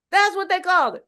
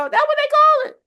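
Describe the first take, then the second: First: Said in the usual way. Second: Squealed out very high and loud; preaching peak. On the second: Real, not acted. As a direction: hit the answer like a shout from the pulpit. Answers her own preaching question.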